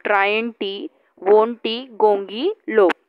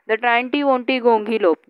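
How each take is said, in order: First: The word is split with pauses between parts. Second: The word is said smoothly without pauses. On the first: "you can make pieces of these words" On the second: "Here the way to pronounce this word"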